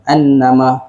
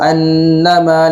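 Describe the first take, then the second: First: The double n is short, with no nasal hum. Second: The double n is held with a nasal hum. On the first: The speaker calls it wrong. "Tak boleh kita baca yahsabu annama annama. Betul, cuma kurang tepat" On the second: The speaker calls it right. "kena ada dia punya dengung kat situ lah"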